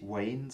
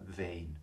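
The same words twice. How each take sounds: First: The word starts with a 'w' glide. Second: The word starts with a 'v' sound. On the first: The speaker calls it wrong. "Nicht Wayne" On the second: The speaker calls it right. "wie ein W in Wasser"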